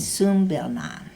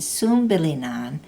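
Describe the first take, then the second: First: The i before -nan is dropped. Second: The i before -nan is kept. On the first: "you can cut the I off" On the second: "instead of saying"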